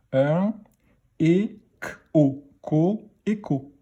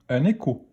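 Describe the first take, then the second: First: Écho built up sound by sound, é, k, o, then joined; teacher decoding écho piece by piece. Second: Said in the usual way. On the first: Shown as a demonstration. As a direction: read écho in slow separate sounds for beginners. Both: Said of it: "On y va pour la lecture des mots".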